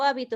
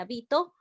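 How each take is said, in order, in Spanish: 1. El acento está en la primera sílaba. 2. El acento está en la sílaba del medio. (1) "es una palabra esdrújula" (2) "también puedo decir"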